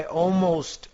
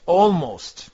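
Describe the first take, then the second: First: Said in the usual way. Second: ALMOST repeated louder, with emphasis; stress on ALMOST. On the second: Shown as a demonstration. Trader qualifying how sure he is, stressing ALMOST. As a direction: punch the word almost. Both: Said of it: "put emphasis on the word almost".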